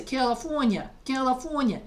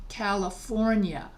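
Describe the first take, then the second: First: California in New York dialect, a little higher; New York accent. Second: California said slowly in standard American, R fully sounded; mainstream pronunciation. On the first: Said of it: "in my regional dialect". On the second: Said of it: "instead of saying". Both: Shown as a demonstration.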